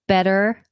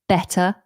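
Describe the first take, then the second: First: The middle T is a quick flap. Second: The middle T is a clear T. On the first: This is the more American way. "the way we treat the T is less flapped. Um, that's more American" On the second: This is a more British way. "you're more likely to hear the T"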